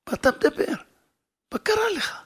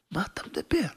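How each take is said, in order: First: "מה אתה מדבר?" said much higher, stressing אתה; incredulous exclaim. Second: Whispered "מה אתה מדבר?" with a rising end; whispered retort. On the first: Wife exclaiming to her husband in disbelief. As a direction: burst out in disbelief. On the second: Wife whispering to her husband in disbelief. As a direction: hush it as a disbelieving question. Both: Retold or imitated.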